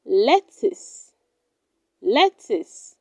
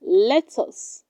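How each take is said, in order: First: Lettuce said as "LET-is"; correct pronunciation. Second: Lettuce said as "let-us"; full "us" vowel ending lettuce; wrong pronunciation. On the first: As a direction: reduce the end of lettuce to a light "is". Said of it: "It is pronounced". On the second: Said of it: "Do not say lettuce". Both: Shown as a demonstration.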